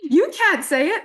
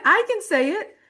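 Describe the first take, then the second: First: "can't" pushed high and loud; high emphatic "can't", mock-indignant; stress on can't. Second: "can" pushed high and stretched; proud high stress on "can". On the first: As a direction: lean hard on "can't". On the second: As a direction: hit the word "can" hard. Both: Shown as a demonstration.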